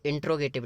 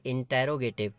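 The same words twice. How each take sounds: First: "इंट्रोगेटिव" with "tro" run together, no vowel after the t; mistaken pronunciation. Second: "इंटेरोगेटिव" with a full "te" vowel between n and r; corrected pronunciation. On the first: Teacher warning students how not to read it, "इंट्रोगेटिव" mispronounced as in-tro-getive. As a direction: say "इंट्रोगेटिव" as in-tro-ge-tiv, dropping the "te" syllable. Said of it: "इसको इंट्रोगेटिव नहीं पढ़ेंगे".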